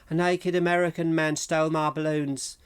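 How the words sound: It is said in a flat, deadpan way.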